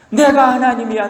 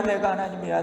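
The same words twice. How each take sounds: First: 내가 하나님이야 said louder, pushed up on 내가; emphatic declaration. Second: 내가 하나님이야 dropped to a soft murmur; quiet repeat. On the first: God asserting himself to Job, loud emphatic declaration. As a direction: declare it firmly, stressing 내가. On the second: God repeating to Job, softer and quieter. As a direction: say it again softly, almost to yourself. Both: Acted. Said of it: "하나님 말씀하시기를".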